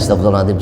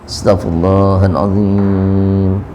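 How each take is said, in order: First: The phrase is rushed out quickly and flatly. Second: The phrase is said slowly, like a heartfelt plea. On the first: It is recited without real feeling. The speaker calls it wrong. "Itu pun ya bacanya cepet aja" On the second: It is a sincere plea for forgiveness. The speaker calls it right. "gimana sih mohon ampun?"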